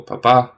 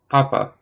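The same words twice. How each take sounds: First: "papa" said pa-PA, the second syllable held longer and louder; stress on final syllable. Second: "papa" said PA-pa, the first syllable hit and the second dropping; stress on first syllable. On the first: Studying Italian stress aloud, the dad reading, final syllable stressed. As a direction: put the weight on the last "pa" of "papa", the father meaning. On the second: Studying Italian stress aloud, the pope reading, first syllable stressed. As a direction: lean on the opening "pa" of "papa", the pope meaning.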